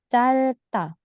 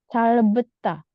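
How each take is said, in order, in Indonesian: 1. Tidak ada bunyi b sebelum suku kata terakhir. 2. Ada bunyi b sebelum suku kata terakhir. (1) "B-nya nggak dibaca ya" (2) "tidak perlu calbeta"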